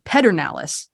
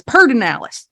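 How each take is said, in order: First: Pedernales said PED-er-NAL-es; as spelled. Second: Pedernales said PER-den-AL-es; local Texan pronunciation. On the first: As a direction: say Pedernales as written, PED first with the R after. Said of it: "it looks like it should read". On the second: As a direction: move the R forward in Pedernales, PUR-den-AL-es. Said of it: "but she says". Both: Shown as a demonstration.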